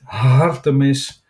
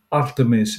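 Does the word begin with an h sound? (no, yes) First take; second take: yes; no. First: The word starts with an h sound. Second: The word starts directly with the vowel. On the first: The speaker calls it wrong. "en niet Hartemis" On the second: The speaker calls it right. "Die godin heet Artemis"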